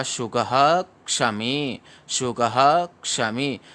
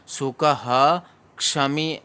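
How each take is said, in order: First: सुखः with a stressed ह, joined to क्षमी; the right सुखः क्षमी, ह stressed; stressed visarga. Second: सुखः क्षमी with the visarga split off, the wrong way; wrong reading. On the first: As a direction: say सुखः क्षमी slowly, leaning on ह. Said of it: "ऐसे क्यों पढ़ रहे हैं". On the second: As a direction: demonstrate सुखः क्षमी as a mistake. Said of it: "ऐसे पढ़ोगे तो गलत हो". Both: Shown as a demonstration.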